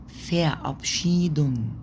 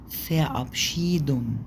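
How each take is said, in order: No difference in how they are said.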